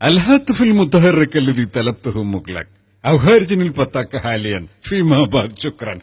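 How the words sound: It is spoken in a put-on voice with laughter. "ഈ ചിരി ആ, എത്തിസലാത്തിന് ഇഷ്ടമായില്ല"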